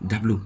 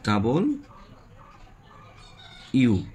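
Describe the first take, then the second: First: The ending is clipped with no full 'you'. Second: The ending is a full, clear 'you' sound. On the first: The speaker calls it wrong. "এটাকে আমরা বলি ডাব্লু" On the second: The speaker calls it right. "সঠিক উচ্চারণ হচ্ছে ডাবল ইউ"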